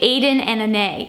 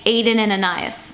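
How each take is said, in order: First: The second name is said in a short form. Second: The second name is said as it is spelled. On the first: This is the brand's own pronunciation. The speaker calls it right. "It's actually Aden and Ane" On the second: This is how the written name seems to read. The speaker calls it wrong. "even though it looks like Aden and Anais"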